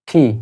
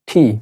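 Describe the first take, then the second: First: The t sound is aspirated, with a puff of air. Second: The same.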